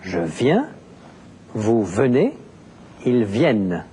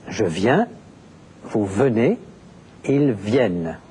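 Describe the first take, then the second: No difference in how they are said.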